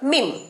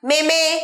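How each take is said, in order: First: It is one syllable with a long ee. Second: It has two syllables with eh vowels. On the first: The speaker calls it right. "সঠিক উচ্চারণ" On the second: The speaker calls it wrong. "ভুলভাল উচ্চারণ"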